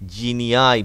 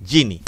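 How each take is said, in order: First: The word ends with an 'eye' sound. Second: The word ends with an 'ee' sound. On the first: "উচ্চারণ কি হবে?" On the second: "বা অনেকে জিনি বলে"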